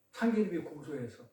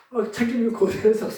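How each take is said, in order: First: Low, soft throwaway of the joke's answer; quiet first punchline. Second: 참기름이 고소해서 said out clearly, stressing 참기름이; punchline restated. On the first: Preacher tossing off the joke's answer to the class, quietly. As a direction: mutter 참기름이 고소해서 softly under the breath. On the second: Preacher repeating the answer so the class gets the pun, clearly. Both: Acted.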